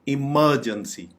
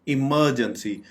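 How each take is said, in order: Both takes have the same delivery.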